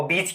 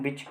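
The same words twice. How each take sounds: First: बीच with a held ee; long vowel. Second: बीच as bich, with a quick i; short vowel. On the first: Teacher asking students about long sound, long ee in बीच. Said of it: "और बीच क्या हो गया?". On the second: Teacher summing up short sound, short i in बीच. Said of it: "ये हो गया short sound बीच". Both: Shown as a demonstration.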